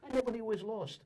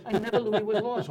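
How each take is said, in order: First: Said in the usual way. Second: NEVER in "I never knew he was lost" punched louder on the repeat; punchline louder. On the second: Shown as a demonstration. Comic repeats his line to the audience, louder on never. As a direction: land the joke, pushing never harder. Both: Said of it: "repeated punchline".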